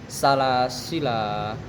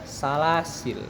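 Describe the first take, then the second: First: The word ends on a long a vowel. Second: The word ends on the consonant l. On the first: "waqaf pada alif setelahnya" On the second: "waqaf pada lam yang mati bukan pada alif setelahnya"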